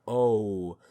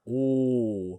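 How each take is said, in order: First: The vowel glides into a second sound. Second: The vowel stays one steady pure sound. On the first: The speaker calls it wrong. "it doesn't get two sounds. It's not O" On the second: The speaker calls it right. "a pure one sound monophthong ooh sound"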